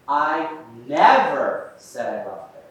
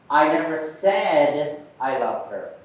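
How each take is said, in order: First: The stress falls on the word never. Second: The stress falls on the word said. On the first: It was never said at any time. "we put that emphasis on the word never" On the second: It was expressed some other way, not spoken. "Now let's put the emphasis on said"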